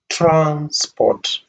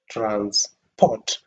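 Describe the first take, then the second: First: The stress is on the first syllable. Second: The stress is on the second syllable. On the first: It names the means of travel or the money for it. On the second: It names the action of moving something. "if you stress the second part, pot"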